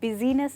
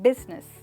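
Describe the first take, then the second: First: It has three syllables, with a middle vowel sounded. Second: It has two syllables, with no middle vowel. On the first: The speaker calls it wrong. "हम बिजीनेस नहीं" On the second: The speaker calls it right. "But बिजनेस कहते हैं"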